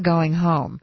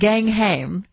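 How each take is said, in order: First: It is said in an ordinary American accent. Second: It is said in an upper-class English accent. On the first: "as we would say" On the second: "in the Queen's version of it"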